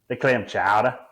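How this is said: It is said in a Boston accent.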